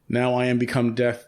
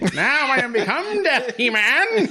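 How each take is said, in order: First: It is said in his normal voice. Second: It is said in a Skeletor impression voice.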